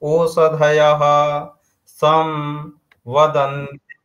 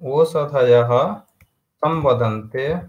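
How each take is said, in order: First: Sam is split off from vadante. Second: Samvadante is said as one joined word. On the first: This is the word-by-word recitation of the verse. "यदि पदपाठ होगा तो क्या होगा?" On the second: This is the continuous recitation of the verse. "इसका जो उच्चारण कैसे होगा?"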